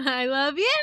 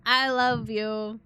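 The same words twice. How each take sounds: First: Laughing. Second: Slow. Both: Real, not acted. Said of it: "said twice, differently".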